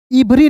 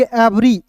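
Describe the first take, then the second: First: इवरी with a short i sound at the start; wrong pronunciation. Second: एवरी with an open e at the start; correct pronunciation. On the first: Teacher showing students the wrong इवरी. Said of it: "इवरी नहीं पढ़ेंगे". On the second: Teacher giving students the right एवरी. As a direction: say एवरी as "ebri", e as in bed. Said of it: "इसे पढ़ेंगे एवरी". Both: Shown as a demonstration.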